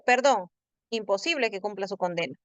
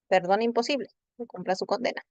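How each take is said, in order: First: The pause comes after perdón. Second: The pause comes after imposible.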